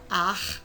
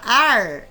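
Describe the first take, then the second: First: The r is a rasping sound in the throat. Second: The r is made with the tongue curled back. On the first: "vai raspar a garganta" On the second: "a língua vai dobrar lá para trás"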